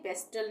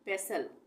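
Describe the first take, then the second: First: A T sound is pronounced in the middle. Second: No T sound is pronounced in the middle. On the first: The speaker calls it wrong. "टी नहीं बोलेंगे, पेस्टल नहीं बोलेंगे" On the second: The speaker calls it right. "यहाँ पर टी का उच्चारण नहीं होगा"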